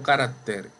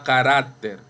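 First: The stress falls on a different syllable. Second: The stress is on the second-to-last syllable. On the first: The speaker calls it wrong. "no carácter" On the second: The speaker calls it right. "Igual a carácter"

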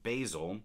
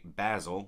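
First: The word is said in a non-British pronunciation. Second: The word is said in a British pronunciation.

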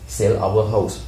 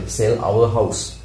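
The two takes are said the same way.

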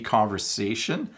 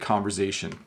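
First: The middle consonant is a hissing S sound. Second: The middle consonant is a buzzing Z sound. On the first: This is the standard form. "it's supposed to be conversation" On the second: This is how people locally say it. "you will often hear people say conversation"

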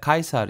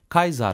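First: The middle consonant is an s sound. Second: The middle consonant is a z sound. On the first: The speaker calls it right. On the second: The speaker calls it wrong.

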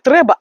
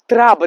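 First: The first vowel is an 'e' sound. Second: The first vowel is an 'a' sound. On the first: This is the standard way to say it. "не треба" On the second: This is the regional Bukovinian way to say it. "як кажуть на Буковині, траба"

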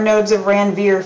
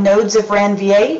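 First: Ranvier is said with an American English pronunciation. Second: Ranvier is said with a French pronunciation. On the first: "for our Texas-born people" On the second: "if you'd like to be French"

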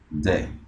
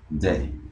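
No difference in how they are said.

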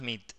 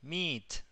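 First: It is said with a short Spanish-style vowel. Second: It is said with a long English vowel. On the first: The speaker calls it wrong. "No es más Meet" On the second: The speaker calls it right. "es Meet. El Meet, ... tiene una I larga"

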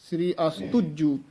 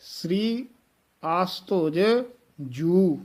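First: The last two words are run together. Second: The last two words are pronounced separately. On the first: The speaker calls it wrong. "ਇਹ ਬਿਲਕੁਲ ਅਸ਼ੁੱਧ ਉਚਾਰਨ ਹੈ" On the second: The speaker calls it right. "ਨਖੇਰ ਕੇ ਪੜ੍ਹਨਾ ਹੈ"

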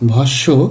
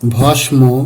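First: Silent m, doubled nasalized consonant before it. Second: The m sound is clearly pronounced. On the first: The speaker calls it right. "সঠিক উচ্চারণ হবে" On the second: The speaker calls it wrong. "এভাবে উচ্চারণ করে থাকি, কিন্তু উচ্চারণগুলো সঠিক নয়"

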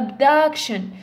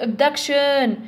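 First: The stress is on the first syllable. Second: The stress is on the third syllable. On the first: "دونك هذه ما تصلحش" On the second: "بصح abduction ما تصلحش"

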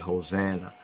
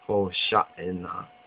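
First: The middle consonant is a plain 'n' sound. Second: The middle consonant is an 'sh' sound. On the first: The speaker calls it wrong. "in the English way" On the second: The speaker calls it right. "the more correct Hebraic way"

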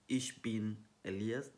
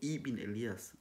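First: It opens with the standard word 'ich'. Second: It opens with the dialect word 'e'. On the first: "Instead of the standard German" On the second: "The Swabian will never say ish, they will say e"

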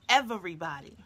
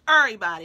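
First: The word is said with a clear v sound. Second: The word is said with the v sound dropped. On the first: "not everybody" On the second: "That's what we say in our town, Uri. We take the V out"

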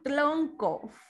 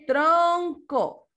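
First: The word is pronounced in a distorted way. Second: The word is pronounced in the standard way. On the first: The speaker calls it wrong. "No tronco" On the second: The speaker calls it right. "Es tronco, ¿verdad?"

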